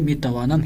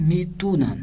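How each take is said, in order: First: The middle syllables are said in full, with va. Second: The middle syllables are shortened to an oo sound. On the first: This is the written, bookish form. "मीतुनम नहीं पढ़ना बल्कि मीतवानम ही पढ़ना है" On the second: This is the everyday conversational form. "बोल चाल में किस तरह से पढ़ना है"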